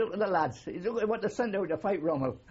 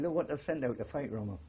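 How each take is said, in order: First: Laughing mock scorn. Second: Said in the usual way. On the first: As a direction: relive the sergeant's sneer while cracking up. Sergeant mocks recruits, teller laughing.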